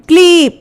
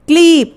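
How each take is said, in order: The two takes are said the same way.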